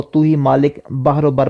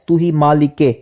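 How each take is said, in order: First: مالک said flat as "malik" without the zer; wrong pronunciation. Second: مالک کے with a clear zer, "malik-e"; correct pronunciation. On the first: Teacher imitating how some people misread, wrong pronunciation. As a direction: read "تو ہی مالک بحر و بر" the common wrong way. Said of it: "بعض لوگ کیا کرتے ہیں". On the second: Teacher correcting students' reading, careful pronunciation. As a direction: say "تو ہی مالک کے" with the kasra linking. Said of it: "جو زیر آئے گی". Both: Shown as a demonstration.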